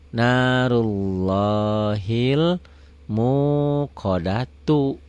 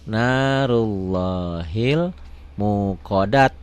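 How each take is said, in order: First: The phrase ends with a final u vowel. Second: The phrase ends on a bare t sound. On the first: The reading continues without stopping. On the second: The reading stops at this word.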